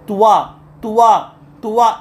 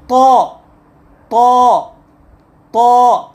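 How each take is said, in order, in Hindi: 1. 'w' glide जुड़ जाती है, जिससे 'tua' बनता है। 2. सादा 'to', t के बाद कोई ग्लाइड नहीं। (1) "ये गलत है" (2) "ये सही है"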